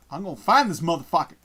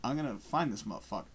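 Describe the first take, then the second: First: Said again with more push; louder repeat. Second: Said in the usual way. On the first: Real, not acted. Streamer searching online, firmer repeat.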